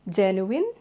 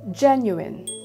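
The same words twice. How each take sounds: First: The stress is on a later syllable. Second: The stress is on the first syllable. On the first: The speaker calls it wrong. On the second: The speaker calls it right. "it's the first one, which is gen"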